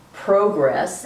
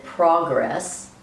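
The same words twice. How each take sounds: First: "progress" as PROH-gress, with a long o; word variation. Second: "progress" as PRAH-gress, with an open ah; word variation. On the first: Lecturer announcing variations of the word, long-o pronunciation. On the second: Lecturer announcing variations of the word, open-ah pronunciation. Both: Shown as a demonstration. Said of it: "using variations of the word".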